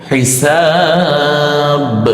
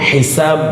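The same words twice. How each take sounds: First: The final b is released with a clear bounce. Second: The final b is barely heard, without release. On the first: The speaker calls it right. "এই জন্যই কলকলা করতে হবে" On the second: The speaker calls it wrong. "যদি আমরা বলি হিসাব তাহলে কিন্তু বাটা আসছে না"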